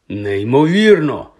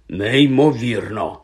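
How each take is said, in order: First: Slow, drawn-out НЕЙМОВІРНО, voice rising then falling; amazed exclamation. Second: Very slow, stretched НЕЙМОВІРНО, less forceful; muted amazement. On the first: Ron sees his new face in the mirror, exclaiming. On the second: Ron prods the flattened nose, marvelling slowly. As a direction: repeat НЕЙМОВІРНО in drawn-out wonder. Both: A narrator's reading. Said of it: "вигукнув Рон".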